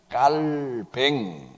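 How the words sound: The name is said in a French-style way. "프랑스식 발음으로 ... 깔뱅 이렇게 불러야 맞다"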